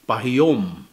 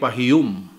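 First: The last syllable has an 'o' vowel. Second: The last syllable has a harder 'u' vowel. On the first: The speaker calls it wrong. "if you're going to pronounce it the way it is spelt, it should be pahiyum, which is very unlikely" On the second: The speaker calls it right. "we pronounce it like pahiyum. So it's like a little bit hard"

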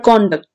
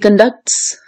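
First: The stress falls on the first syllable. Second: The stress falls on the second syllable. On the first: It is a noun: a person's behaviour. "This is noun. Her conduct. This con part is actually stress" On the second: It is a verb: to behave or carry oneself. "So this ducts is here actually stressed. So this is verb"

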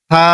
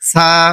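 First: It starts with the tongue tip on teeth. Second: It starts with a hissing s sound. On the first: The speaker calls it right. "জিব্বার আগা সামনের উপরে যে 2টি দাঁত রয়েছে এখানে লাগিয়ে উচ্চারণ করবেন" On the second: The speaker calls it wrong. "এটি ভুল, এটি অশুদ্ধ।"

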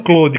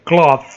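First: The word is said sounding like the name Claude. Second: The word is said with tongue against the palate. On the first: The speaker calls it wrong. "E não Claude" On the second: The speaker calls it right. "com a língua no céu da boca"

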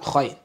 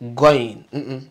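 First: It begins with a rough voiceless kh sound. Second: It begins with a hard g sound. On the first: "It's not khain" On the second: "It's not also goin. Not the G sound"

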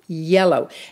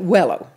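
First: The word begins with a Y sound. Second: The word begins with a W sound. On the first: The speaker calls it right. "Bill, say yellow" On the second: The speaker calls it wrong. "he couldn't say yellow. He couldn't pronounce the Y's"

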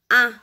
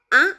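First: The vowel is said on a level pitch. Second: The vowel is said with a rising pitch. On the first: The speaker calls it right. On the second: The speaker calls it wrong.

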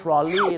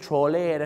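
First: The word ends with an 'ee' vowel sound. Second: The word ends with an 'ay' vowel sound. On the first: The speaker calls it right. "เขาจะเรียกว่า" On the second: The speaker calls it wrong. "ไม่ใช่"

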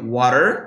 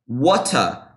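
First: It is spoken in an American accent. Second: It is spoken in a British accent. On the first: "Agora a gente tem um sotaque americano, que seria water" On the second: "Agora o britânico já seria water"

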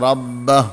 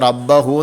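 First: The word stops on the h, with no vowel. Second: The word ends with a final u vowel. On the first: The speaker calls it right. "ഹാഇന് സുക്കൂൻ ചെയ്ത് നിർത്തണം" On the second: The speaker calls it wrong. "റബ്ബഹു എന്ന് പറയാൻ പാടില്ല"

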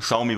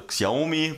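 First: The name is said with its native pronunciation. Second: The name is read out the way it is spelled. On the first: The speaker calls it right. "Xiaomi wird es ausgesprochen" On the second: The speaker calls it wrong. "Also Xiaomi wird es geschrieben"

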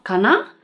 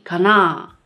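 First: The pitch rises at the end. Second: The pitch does not rise at the end. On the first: It sounds like a question. The speaker calls it wrong. "It's not かな?" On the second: It is an affirmative sentence. The speaker calls it right. "the intonation doesn't go up"

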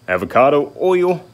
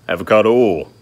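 First: Oil has an oy vowel with a y-glide. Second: Oil has a plain o vowel, no glide. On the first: The speaker calls it wrong. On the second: The speaker calls it right. "Drop the I. There ain't no Y"

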